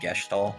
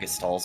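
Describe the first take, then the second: First: The middle consonant is an sh sound. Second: The middle consonant is a plain s sound. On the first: The speaker calls it wrong. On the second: The speaker calls it right.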